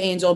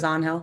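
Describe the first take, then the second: First: The name has the English pronunciation. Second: The name has the Spanish pronunciation. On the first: This is how the speaker's own circle says it. "we say Angel" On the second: This is how the Dominican family says it. "his family says Angel"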